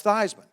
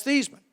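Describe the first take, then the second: First: Theismann said THIGHS-man, with the long i of Heisman; Theismann pronunciation. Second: Thiesman said THEES-man, with a long ee; Thiesman pronunciation. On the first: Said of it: "how do you pronounce your last name". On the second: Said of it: "I said". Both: Retold or imitated.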